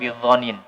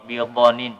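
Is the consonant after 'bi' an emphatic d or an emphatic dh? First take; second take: emphatic dh; emphatic d. First: The consonant after 'bi' is an emphatic dh. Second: The consonant after 'bi' is an emphatic d. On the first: He is not accused of lying about it. "bukan bidhanin" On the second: He is not stingy with the revelation. "di situ yang disebutkan adalah ... bidhanin"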